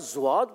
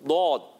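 First: It begins with a z sound. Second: It begins with a heavy, emphatic d-like sound. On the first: The speaker calls it wrong. "یا زواد پڑھ دیتے ہیں" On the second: The speaker calls it right. "اس کو جو اس کا تلفظ ہے اس سے ادا کرنا ہے"

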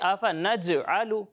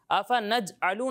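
First: The j sound bounces with a short echo. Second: The j sound is flat, without a bounce. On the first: The speaker calls it right. "اسے ایسے پڑھیں گے" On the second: The speaker calls it wrong. "آفا نج آلو نہیں پڑھیں گے"

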